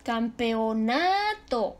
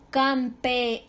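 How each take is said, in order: First: "Campeonato" with a long, rising na; penultimate stress. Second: "Campeonato" as cam, pe, o, na, to; separated syllables. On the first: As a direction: stretch the na in "Campeonato" slowly. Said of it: "es grave". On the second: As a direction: sound out "Campeonato" in five spaced beats. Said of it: "Se separó". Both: Shown as a demonstration.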